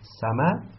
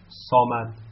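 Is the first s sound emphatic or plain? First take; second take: plain; emphatic. First: The first s sound is thin and plain. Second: The first s sound is thick and emphatic.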